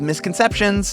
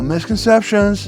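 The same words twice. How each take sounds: First: The T and S sounds are crisply articulated. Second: The T and S sounds are softened and rounded. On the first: The speaker calls it wrong. "instead of misconceptions" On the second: The speaker calls it right. "we just kind of round it out"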